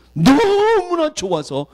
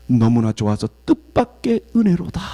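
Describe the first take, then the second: First: Overjoyed. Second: Said in the usual way. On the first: Real, not acted. Overjoyed, then repeated.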